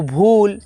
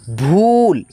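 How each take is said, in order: First: भूल with a short, quick ऊ; short vowel. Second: भूल with the ऊ stretched long; drawn-out vowel. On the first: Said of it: "उच्चारण धू-, अ, धीरा है". (भूल छोटे ऊ के साथ, धीरे उच्चारण) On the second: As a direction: pull out the ऊ in भूल. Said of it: "भूल खींचता हुआ उच्चारण है". (भूल खींचकर, लंबा ऊ) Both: Shown as a demonstration.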